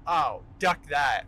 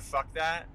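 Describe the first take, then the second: First: Drawn-out, loud "Oh, duck that" with a clear d in duck; slow, loud "duck" where "fuck" belongs; mock duck that. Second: Said in the usual way. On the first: Shown as a demonstration. To listeners, a fake-innocent slow "duck that". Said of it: "instead of "fuck that". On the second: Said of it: "you know, instead of".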